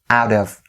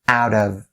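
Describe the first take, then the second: First: The V sound at the end is clearly pronounced. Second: The same.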